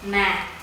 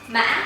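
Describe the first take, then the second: First: The pitch falls low and gently throughout. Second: The pitch rises with a break midway. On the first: It means but. "if you change its hanging tones" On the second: It means horse. "The fifth tone is a tumbling tone"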